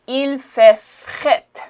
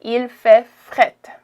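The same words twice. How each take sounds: First: "fret" said like "fett", slow and drawn out; "Il fait fret" said slowly, Quebec style; Quebec slang pronunciation. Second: "Il fait fret" slow and louder, every syllable clear; teacher spells out "Il fait fret" slowly; slow teaching demo. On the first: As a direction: stretch out "Il fait fret" slowly, the r in "fret" nearly gone. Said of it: "Il, you say". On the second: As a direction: drill "Il fait fret" loud and slow for learners. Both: Shown as a demonstration.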